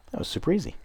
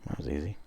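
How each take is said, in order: First: High, sing-song mock praise. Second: Said in the usual way. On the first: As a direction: squeak it out in a mock sweet voice. Repeats the line, mock sweet.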